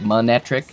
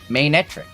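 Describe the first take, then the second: First: The first syllable sounds like 'man'. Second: The first syllable sounds like 'mane'. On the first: The speaker calls it wrong. "I used to just call it Manectric" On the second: The speaker calls it right. "Like a mane, like a lion's mane"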